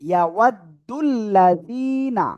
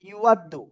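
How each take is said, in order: First: The first vowel sounds like 'ya'. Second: The first vowel sounds like 'yu'. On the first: The speaker calls it right. "না, এখানে" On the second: The speaker calls it wrong. "ভাই এখানে বলেছিল ইউ"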